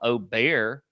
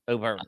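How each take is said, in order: First: The name ends in 'bear' with no g. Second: The name ends in 'berg' with a g. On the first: The speaker calls it wrong. "everybody wants to call him Oh Bear. That's not it" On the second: The speaker calls it right. "It's Berg. Just go with Berg"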